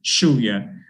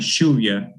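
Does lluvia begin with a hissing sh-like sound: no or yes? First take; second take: yes; yes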